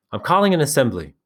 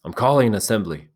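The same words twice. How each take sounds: First: Raised call to the group. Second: Firm, louder repeat; loud call. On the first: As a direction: call it out firmly. Ralph calls the assembly. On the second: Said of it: "Ralph spoke again, loudly". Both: Acted.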